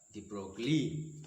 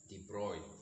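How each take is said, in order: First: The name is read following its English spelling. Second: The name is said with French pronunciation. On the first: The speaker calls it wrong. "mostly his name is mispronounced as de Broglie because it is B R" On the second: The speaker calls it right. "in French that is de Broglie"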